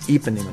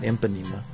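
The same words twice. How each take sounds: First: The first syllable sounds like 'ee'. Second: The first syllable sounds like 'imp'. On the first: The speaker calls it right. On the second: The speaker calls it wrong. "not Ipanema. She's not an imp"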